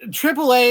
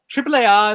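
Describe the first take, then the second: First: The name is said with an American pronunciation. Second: The name is said with a Spanish pronunciation. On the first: This is how Americans say it. "is the American pronunciation" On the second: This is how the promotion wants it said. "how they would uh, like it to be pronounced"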